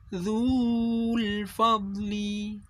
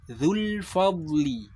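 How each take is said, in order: First: The vowel in the first word is long. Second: The vowel in the first word is short. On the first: The speaker calls it wrong. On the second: The speaker calls it right. "maka dzu ini wawu madnya tidak terbaca atau dianggap tidak ada"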